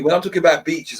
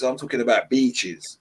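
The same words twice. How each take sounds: First: Said in the usual way. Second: Beaches drawn out with a firm falling tune; stress on beaches. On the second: Shown as a demonstration. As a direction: lean on beaches to make the point.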